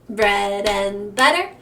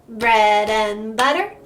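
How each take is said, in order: No difference in how they are said.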